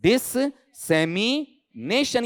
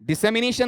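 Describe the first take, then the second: First: The middle s sound is doubled and held. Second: The middle s sound is single and short. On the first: The speaker calls it right. "डिससेमिनेशन या नेशन, इस तरीके से" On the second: The speaker calls it wrong. "डिसेमिनेशन नहीं"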